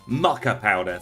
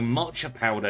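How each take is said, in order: First: The first word sounds like 'mucka'. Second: The first word sounds like 'matcha'. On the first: The speaker calls it right. "thank you" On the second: The speaker calls it wrong. "is how I want to pronounce it, but I'm fairly certain that's wrong"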